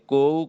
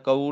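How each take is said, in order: First: The first syllable has an 'o' vowel. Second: The first syllable has a short 'a' vowel. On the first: The speaker calls it right. "ਇਹ ਕੋਊ ਕਹਿਣਾ ਹੈ" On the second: The speaker calls it wrong. "ਕਊ ਨਹੀਂ ਕਹਿਣਾ"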